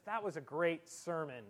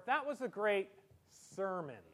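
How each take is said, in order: First: Said in the usual way. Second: SERMON set apart after a pause, dubious; pause, then quote "sermon" as so-called; finger quotes on SERMON. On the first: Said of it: "a lady shakes your hand and says". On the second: Shown as a demonstration. Lady at church doors, finger quotes on SERMON.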